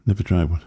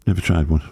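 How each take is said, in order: Both takes have the same delivery.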